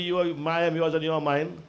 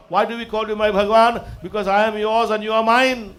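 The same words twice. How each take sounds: First: Subdued imitation of a lover's line; mock sweet-talk. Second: Raised, devotional preaching voice; fervent declaration to God. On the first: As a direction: toss off a lover's empty promise. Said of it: "don't fool the lady and tell the lady". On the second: Acted. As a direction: declare devotion with full conviction. Devotional declaration to God, then mimicked.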